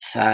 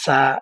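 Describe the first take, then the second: First: The tongue tip touches the upper teeth, th-like. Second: The tongue tip touches the gum ridge, s-like. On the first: The speaker calls it right. "জিহ্বার আগাটা সামনের উপরের দুই দাঁতের আগার সাথে লাগাবেন। লাগাই বলবেন সা" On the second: The speaker calls it wrong. "এভাবে বলবেন না ... মাড়ির সাথে লাগে"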